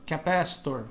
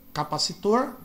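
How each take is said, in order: First: Capacitor as kuh-PASS-tor; English pronunciation. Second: Capacitor as ka-pa-si-TOR; Portuguese pronunciation. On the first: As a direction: say capacitor the American way, stress on PA. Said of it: "no inglês americano eles pronunciam como R". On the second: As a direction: say capacitor the Brazilian way, stress at the end. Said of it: "por isso que fica". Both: Shown as a demonstration.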